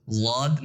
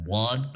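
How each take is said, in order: First: واد said as a plain thin "wad" with no heavy sound; wrong plain wad. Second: واد said full and heavy, like the Arabic emphatic letter; correct heavy dwad. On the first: Teacher showing students the wrong, plain way of saying واد. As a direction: give واد light like an ordinary d. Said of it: "اس کو واد نہیں پڑھنا". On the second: Teacher showing students the correct heavy Arabic واد. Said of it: "اس کو واد پڑھنا ہے". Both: Shown as a demonstration.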